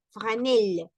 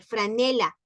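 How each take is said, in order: First: "franel" said the French way, no final a; "franel" cut short, French style; French pronunciation. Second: Said in the usual way. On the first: Shown as a demonstration. (pronunciación francesa)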